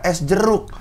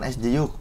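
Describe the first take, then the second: First: The R is pronounced clearly as a trill. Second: The R is lisped into a y-like sound. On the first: The speaker calls it right. "R R R R udah bisa" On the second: The speaker calls it wrong. "kamu cadel, kamu harus belajar huruf R"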